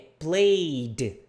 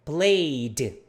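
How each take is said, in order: No difference in how they are said.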